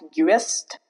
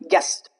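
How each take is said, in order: First: The U vowel is pronounced after G. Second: The U after G is silent. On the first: The speaker calls it wrong. "It's not guest" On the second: The speaker calls it right. "but guest"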